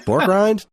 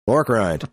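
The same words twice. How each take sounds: First: "Pork rind?" asked with a high rising tune; "Pork rind?" as a surprised question, pitch jumping up on "Pork"; questioning rise. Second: Said in the usual way. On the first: Shown as a demonstration.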